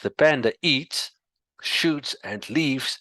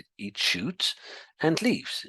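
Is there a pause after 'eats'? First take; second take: yes; no. First: There is a clear pause after eats. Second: Eats, shoots and leaves run together as foods.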